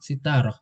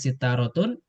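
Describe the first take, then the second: First: The word ends with a soft h sound. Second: The word ends with a full -tun ending. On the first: This is the form used when stopping at a pause. "kalau wakof kita bilang sitaroh" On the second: This is the full form inside a sentence. "aslinya sitarotun"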